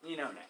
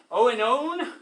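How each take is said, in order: First: The name begins with an 'eh' sound. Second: The name begins with an 'oh' sound. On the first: The speaker calls it right. "you just pronounce the second one. It's enone" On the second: The speaker calls it wrong. "So it looks like oenone"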